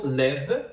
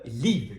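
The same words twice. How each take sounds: First: "leve" as English live, short lax i; short open vowel in "leve", like English live. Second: "leave" with a long ee. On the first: Teacher contrasting two verbs, "leve" with short i. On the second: Teacher contrasting two verbs, "leave" with long ee. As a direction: stretch the tense ee in "leave". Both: Shown as a demonstration. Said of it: "que também é um par mínimo".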